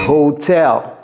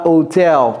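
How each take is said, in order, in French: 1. Le h initial est bien prononcé. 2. Le h initial est muet. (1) "prononcez le H également. ... c'est hotel" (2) "C'est pas hotel"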